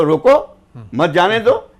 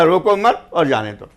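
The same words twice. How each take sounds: First: रोको alone, a break, then मत जाने दो as one phrase; pause after रोको. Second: रोको मत as one phrase, then और जाने दो; मत grouped with रोको. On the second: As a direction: join मत to रोको, falling on it before और जाने दो. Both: Shown as a demonstration. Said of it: "उसके दोनों अर्थ होते थे".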